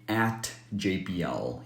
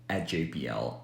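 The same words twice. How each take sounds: First: The final T is released with a puff of air. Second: The final T is held without releasing air. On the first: "you don't have to release the T sound in at. So you don't have to say" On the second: "You can say"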